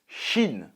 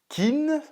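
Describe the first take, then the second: First: The name begins with a sh sound. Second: The name begins with a hard k sound. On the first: The speaker calls it right. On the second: The speaker calls it wrong.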